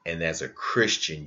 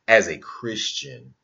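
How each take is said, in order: First: Said in the usual way. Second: As a Christian said higher, louder and slower; mocking emphasis on as a Christian; stressed mocking repeat. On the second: Real, not acted. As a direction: lean hard on as a Christian, with scorn.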